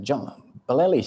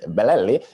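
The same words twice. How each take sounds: First: Said in the usual way. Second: Bellelli said with a rolling Italian lilt; Italian accent. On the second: Shown as a demonstration. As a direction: give Bellelli a mock Italian accent, each syllable sung out. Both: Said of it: "If you just use the accent".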